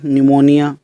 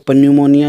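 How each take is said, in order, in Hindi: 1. इस शब्द की शुरुआत में कोई p की आवाज़ नहीं है। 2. इस शब्द की शुरुआत में बोला हुआ p है।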